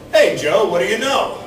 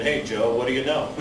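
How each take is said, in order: First: Cheery greeting. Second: Lower, softer, bored parroting of the greeting; tired sing-song imitation of the pals; weary mock repeat. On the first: Retold or imitated. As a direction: call out the greeting like an old pal happy to see him. Cheery greeting at class reunion. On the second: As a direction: mimic the line like you've heard it a thousand times. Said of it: "I'm sick and tired of people saying".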